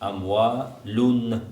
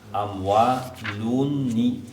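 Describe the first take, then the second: First: The word ends on a bare n sound. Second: The word ends with an added short i vowel. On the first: "Амвалун танвин" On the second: "к танвину добавляется кясра, который не пишется, но надо проговаривать"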